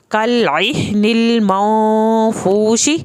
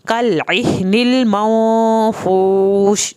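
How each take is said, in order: First: Slow connected recitation, फूशी with its full final vowel; slow, drawn Quranic recitation ending on फूशी; joined without pause. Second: Slow recitation that stops on फूश with the final vowel dropped; stopping at the end. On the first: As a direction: read कल इह निल माओ फूशी slowly as one joined phrase. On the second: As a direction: pause on फूश and cut the ending. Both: Shown as a demonstration. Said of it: "यहाँ भी वक्फ कर सकते हैं".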